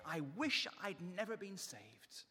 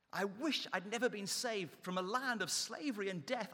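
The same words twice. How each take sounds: First: Slow, drawn-out complaining start; slow mock moan. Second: The same complaint pushed harder, rising on never; building mock moan. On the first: Preacher voicing Israelites' first complaint, slow mock moan. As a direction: ease into the grumbling wish, slowly. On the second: Preacher voicing Israelites' complaint, building mock moan. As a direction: let the whining swell as it repeats. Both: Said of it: "three times they're saying".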